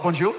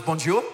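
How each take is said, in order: First: Bonjour said with a French lilt and a rising end. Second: Said in the usual way. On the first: Shown as a demonstration. Pastor showing the congregation how to say bonjour, rising. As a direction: sound out bonjour the French way, a bit louder. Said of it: "which helps you a lot, bonjour".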